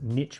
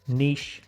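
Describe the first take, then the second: First: Niche is said the American way. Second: Niche is said the non-American way. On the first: "if you're in the U S A, you'd call it" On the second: "we call this"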